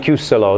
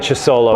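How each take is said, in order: First: The name begins with a k sound. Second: The name begins with a ch sound. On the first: It follows the Italian spelling rule. "C H I U make a Q sound" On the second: It is the speaker's usual way of saying it. "I'm just going to back to saying"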